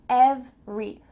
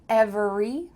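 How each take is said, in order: First: The middle vowel is dropped, giving two syllables. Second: The middle vowel is kept, giving three syllables. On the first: The speaker calls it right. "we're cutting out that middle vowel and we're simply saying every" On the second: The speaker calls it wrong. "Don't say every"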